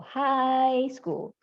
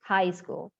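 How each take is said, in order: First: Slow "high school", "high" held long and raised; correct pronunciation. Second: Said in the usual way. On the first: Shown as a demonstration. Teacher summing up for students, slow correct pronunciation. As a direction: stretch the vowel of "high". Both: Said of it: "Artinya tidak diucapkan".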